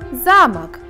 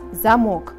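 First: The stress is on the first syllable. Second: The stress is on the second syllable. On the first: "а во втором слове ударным является слог «за»" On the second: "В первом слове слог «мок» является ударным"

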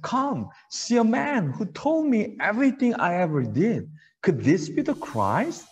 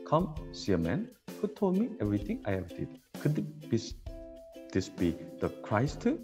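First: It is said expressively, like real conversation. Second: It is said flatly, like a robot.

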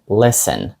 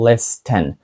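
First: The t sound is silent in the middle. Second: The t sound is pronounced in the middle. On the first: The speaker calls it right. "ми кажемо «listen»" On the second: The speaker calls it wrong. "Ми не кажемо «listen»"

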